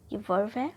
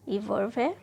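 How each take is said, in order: Both takes have the same delivery.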